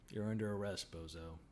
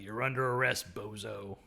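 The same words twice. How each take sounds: First: It is said flat and dead-faced. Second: It is said with lots of energy.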